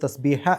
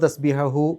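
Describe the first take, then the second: First: The word is cut short without the final syllable. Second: The word ends with a full final 'hu' syllable. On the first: The reader stops at this word. "തസ്ബീഹ എന്ന് പറഞ്ഞിട്ടാണ് നിർത്തേണ്ടത്" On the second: The reader continues without stopping. "നിർത്താതെ പോകുന്ന ആളുകൾക്കുള്ള നിയമമാണ്"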